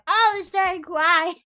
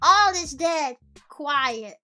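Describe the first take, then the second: First: It runs on without a pause after dead. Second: There is a pause after the word dead. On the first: The speaker calls it right. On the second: The speaker calls it wrong.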